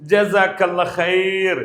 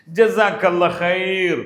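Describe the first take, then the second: No difference in how they are said.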